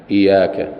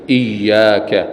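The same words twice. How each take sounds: First: إياك said wrongly with a single y, no doubling; faulty iyaka. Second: إياك with the doubled y held long; shadda on iyyaka. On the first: Teacher imitating a wrong recitation of إياك. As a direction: drop the shadda in إياك, as a mistake. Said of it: "ما يصح أن يقول إياك". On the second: Teacher showing the correct reading of إياك. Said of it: "لابد من الإتيان بالتشديد". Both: Shown as a demonstration.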